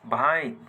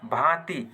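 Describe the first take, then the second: First: भाइत with an i glide before the final t; apinihiti form. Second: Said in the usual way. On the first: Shown as a demonstration. Teacher showing Nagpuri learners the shifted vowel, apinihiti form भाइत. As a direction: sound the इ ahead of त in भाइत. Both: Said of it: "अपनिहित बनाल जाएला".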